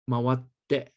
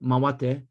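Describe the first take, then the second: First: The t sound in the middle is held long. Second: The t sound in the middle is short. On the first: The speaker calls it right. "The double consonant sound in Japanese means it's double the length" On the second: The speaker calls it wrong. "it's not mawate"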